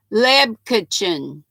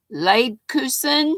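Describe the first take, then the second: First: Slow, guessed "Leb Kitchen", like English "kitchen"; mispronounced foreign word. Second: "Leibkuchen" sounded out slowly, rising at the end; slow, unsure second go at "Leibkuchen"; careful pronunciation attempt. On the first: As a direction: sound out "Leb Kitchen" with a short "Leb". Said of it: "I probably screwed it up". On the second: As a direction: try "Leibkuchen" with a long first vowel and "koo" in the middle. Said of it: "Did I get it right that time?". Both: Shown as a demonstration.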